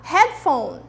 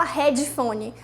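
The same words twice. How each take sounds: First: Headphone said as hedfone with no added vowel; correct pronunciation. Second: Headphone said as hedjifoni with added vowels; wrong pronunciation. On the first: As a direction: say Headphone cleanly. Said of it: "vamos aprender a falar". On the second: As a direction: imitate the wrong Brazilian headphone. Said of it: "Não fala headphone". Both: Shown as a demonstration.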